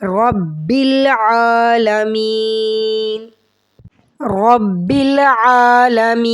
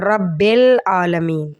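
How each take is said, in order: First: Slow chanted रब्बिल with a clear short i; correct recitation. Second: रब्बिल said like रब्बेल; wrong bel. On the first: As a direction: recite रब्बिल आलमीन drawn out and melodic. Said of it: "रब्बिल नहीं कहना". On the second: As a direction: say रब्बिल with e in place of i, the mistake. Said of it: "बिल की जगह बेल पढ़ जाते हैं". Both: Shown as a demonstration.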